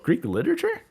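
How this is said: The pitch rises at the end. It invites the other person to expand. "Smiling face, looking up"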